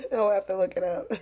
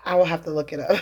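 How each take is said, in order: First: Says it through a laugh, quicker; giggling while speaking. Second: Said in the usual way. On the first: Real, not acted. Repeats line while laughing.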